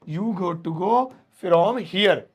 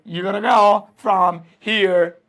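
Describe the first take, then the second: First: 'Got to' is said as two full words. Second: 'Got to' is blended into 'gotta'. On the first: "ये लिखता मैं" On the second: "short English में, दमदार English में"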